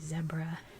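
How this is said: It is said with a non-American pronunciation. "Literally everywhere else in the world they say zebra"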